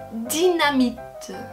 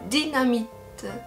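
First: It is said with a French pronunciation. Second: The same.

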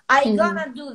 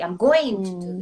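First: 'Going to' is reduced to 'gonna'. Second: 'Going to' is said in full. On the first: This is casual slang speech. The speaker calls it wrong. "всяких таких штучек сленговых, типа «gonna»" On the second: This is clean, classical speech. The speaker calls it right. "Он говорит по-британски"

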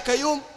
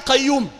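First: The word starts without the uvular q sound. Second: The word starts with a deep uvular q sound.

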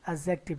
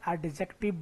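First: The d sound is left silent. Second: The d sound is clearly pronounced. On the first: The speaker calls it right. "ये होता है एडजेक्टिव। यहाँ पर डी को हम लोग क्या करते हैं, साइलेंट रखते हैं।" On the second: The speaker calls it wrong. "बहुत सारे बच्चे इसे एडजेक्टिव बोलते हैं, या डी नहीं होता है"

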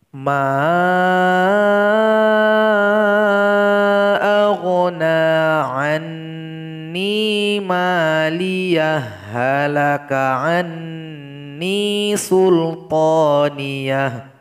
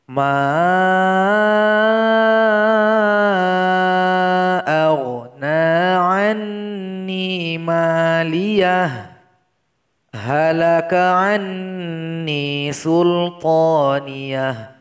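First: Maliyah runs into halaka with a doubled h. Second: It stops after maliyah before halaka. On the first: "kita mesti menggabung ayat dua puluh delapan dengan ayat dua puluh sembilan" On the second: "kita baca sebagaimana yang tertulis"

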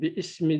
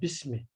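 First: The initial vowel of ismi is pronounced separately. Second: The initial vowel of ismi is dropped and linked. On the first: The speaker calls it wrong. "Bir ismi demiyoruz" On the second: The speaker calls it right. "Burada da var"

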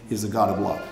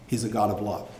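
Both takes have the same delivery.

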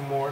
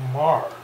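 First: The vowel sounds like the word 'more'. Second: The vowel sounds like the word 'mar'. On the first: The speaker calls it wrong. "They don't say Moore" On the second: The speaker calls it right. "they say Mar"

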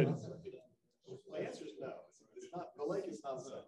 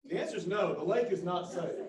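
First: It is said at normal volume. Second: It is said more loudly.

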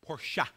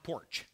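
First: The word is said as two syllables. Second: The word is said as one syllable. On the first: The speaker calls it right. "two syllables" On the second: The speaker calls it wrong. "it's not porch"

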